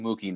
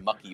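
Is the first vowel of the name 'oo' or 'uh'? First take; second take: oo; uh. First: The first vowel is a long 'oo' sound. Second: The first vowel is a short 'uh' sound. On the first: The speaker calls it right. "he's saying Mookie now" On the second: The speaker calls it wrong. "for a very long time saying Mucky Betts"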